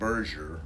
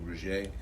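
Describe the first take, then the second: First: The name is said with an English pronunciation. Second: The name is said with a French pronunciation. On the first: "We pronounce it Berger" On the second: "it could have a French pronunciation too"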